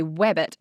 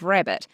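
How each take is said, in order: First: RABBIT said with a W for the R. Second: Said in the usual way. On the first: Shown as a demonstration. Speech therapist showing an impediment, R becomes W. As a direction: swap the R in rabbit for W, "wabbit". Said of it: "change them from an R to a W". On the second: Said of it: "instead of rabbit".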